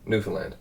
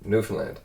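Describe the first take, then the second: No difference in how they are said.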